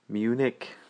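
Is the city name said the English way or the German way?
English. The name is said with an English pronunciation.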